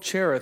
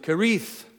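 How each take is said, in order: First: The name begins with a soft CH sound. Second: The name begins with a hard K sound. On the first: "we'll give it the soft CH" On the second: "they pronounce it Kerith"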